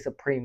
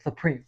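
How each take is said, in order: First: The s sound is a clear hiss. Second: The s sound is lisped through the teeth. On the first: "he wouldn't say Supreme" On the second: "He say Supreme"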